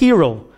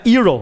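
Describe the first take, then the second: First: The initial h is pronounced with aspiration. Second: The initial h is silent, not pronounced. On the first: The speaker calls it right. "É aquele aspirado" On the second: The speaker calls it wrong. "Não é hero"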